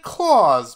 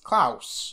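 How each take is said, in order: First: It is said like Santa's Claus. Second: It is said unlike Santa's Claus. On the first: The speaker calls it wrong. "we've said Claus, but his name's not Claus" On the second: The speaker calls it right. "it's Klaus"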